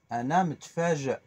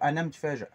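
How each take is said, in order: First: It is said slowly with the words kept apart. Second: It is said quickly with the words run together. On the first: This is the careful way a learner can manage. "je le sépare" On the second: This is how native speakers really say it. "c'est un peu plus rapide, c'est un peu tout mélangé"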